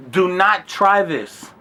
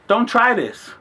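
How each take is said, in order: First: Slow, separate words on "Do not try this"; emphatic warning. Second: Said in the usual way. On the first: Real, not acted. Warning young kids watching, slow emphatic "Do not try this". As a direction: spell out "Do not try this" word by word.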